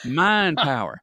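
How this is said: It is said in a country accent.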